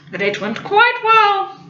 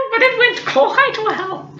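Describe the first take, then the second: First: Slow, knowing "quite well" with a fall; coy, drawn-out "quite well"; stress on quite. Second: "quite well" stretched slowly, teasing; sly drawn-out hint; slow knowing repeat. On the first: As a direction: drag out "quite" with a sly smile. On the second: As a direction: linger on "it went quite well". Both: Retold or imitated.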